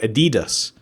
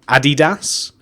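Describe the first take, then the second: First: The brand name is said the American way. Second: The brand name is said the British way. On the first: "Americans and maybe other people call it Adidas" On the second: "That's what we call it in the U K"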